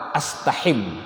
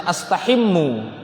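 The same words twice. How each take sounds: First: "astahim" closed softly on m; sukun ending. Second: "astahimmu" with held m and final u; original vowelled ending. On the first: Teacher showing effect of lam, softer "astahim" stopped on m. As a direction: drop the final vowel, end "astahim" on m. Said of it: "Karena masuk lam". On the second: Teacher giving the original form, "astahimmu" ending in u. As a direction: sound the u closing "astahimmu". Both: Shown as a demonstration.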